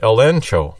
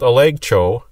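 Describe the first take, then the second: First: The middle consonant is an n sound. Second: The middle consonant is a hard g sound. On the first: The speaker calls it right. "So they pronounce the G like an N" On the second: The speaker calls it wrong. "even though it's spelled elegcho"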